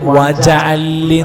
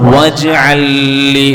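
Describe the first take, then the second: First: A short vowel follows the j sound. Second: No vowel follows the j sound. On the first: The speaker calls it wrong. "വജഅൽ ലി എന്നായി പോകരുത്, അർത്ഥങ്ങൾ മാറും" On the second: The speaker calls it right. "വജ് ജാക്ക് സുക്കൂൻ തന്നെ വരണം"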